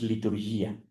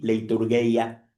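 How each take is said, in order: First: The first syllable has a plain 'lee' vowel. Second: The first syllable has a 'lay' diphthong. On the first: This is how it was said in Koine and Byzantine Greek. "esa no es la pronunciación, es liturgia" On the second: This is how the word is written. "se escribe leiturgi, leiturgeia"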